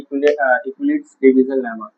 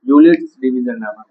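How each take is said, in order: First: The first word begins with an 'ek' sound. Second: The first word begins with a 'yoo' sound. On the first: The speaker calls it wrong. "इक्विलिट्स मत पढ़ना" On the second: The speaker calls it right. "यूलिट्स पढ़ना, ई silent है"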